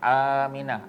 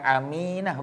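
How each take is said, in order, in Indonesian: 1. Vokal pertama A diucapkan panjang. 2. Vokal pertama A diucapkan pendek. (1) "A tu panjang" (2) "bukan Aminah"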